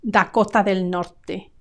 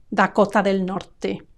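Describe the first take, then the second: Both takes have the same delivery.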